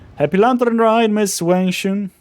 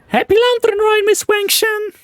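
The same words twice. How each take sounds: First: It is said in the speaker's normal voice. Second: It is said in a put-on character voice.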